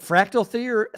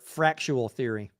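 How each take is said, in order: First: The word is said plainly as frac-tal. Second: The word has an extra chu sound, frac-chu-al. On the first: "Is it fractal theory" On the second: "or fractual theory?"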